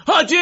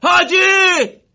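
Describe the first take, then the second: First: Loud call with falling end; shouting a name. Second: Very high, very loud drawn-out cry; desperate scream. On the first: Morteza calls to Haji after his hat flies off, loud. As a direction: call out to the fallen commander. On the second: Morteza screams for the fallen Haji with all his might. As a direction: scream the name with everything you have. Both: Acted. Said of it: "با تمام وجود داد زد".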